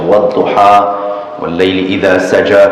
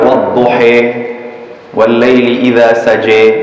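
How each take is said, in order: First: The first word ends with an open 'ah' vowel. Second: The first word ends with an 'ee'-like vowel. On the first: It follows the most widely used recitation. "kita baca yang masyhur" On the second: It follows a less common recitation tradition. "Dia panggil imalah tu yang a a a tu imalah dia panggil. Bunyi dia i kan"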